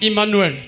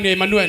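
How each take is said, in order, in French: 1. Le nom se prononce à l'anglaise. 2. Le nom se prononce à la française. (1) "moi je lis Emmanuel" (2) "vous appelez Emmanuel"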